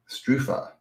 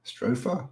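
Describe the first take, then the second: First: "Strufa" with an oo in the first syllable; trying a pronunciation. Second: "Strufa" with an oh in the first syllable, rising; questioning pronunciation. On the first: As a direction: say "Strufa" as STROO-fa, tentatively. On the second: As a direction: ask "Strufa" softly as STROH-fa?. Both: Real, not acted. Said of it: "how do you say that?".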